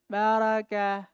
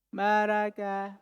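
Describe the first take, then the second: The two takes are said the same way.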